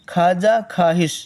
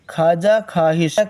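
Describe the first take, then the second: No difference in how they are said.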